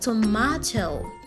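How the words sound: It is said with a British accent. "So in British English, this word is rightfully pronounced tomato"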